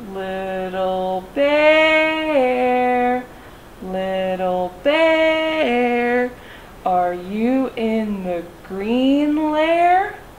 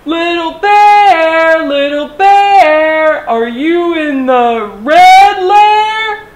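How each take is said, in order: First: It is said very slowly. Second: It is yelled loudly.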